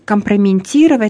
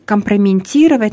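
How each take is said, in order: First: The word has a colloquial nonstandard pronunciation. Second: The same.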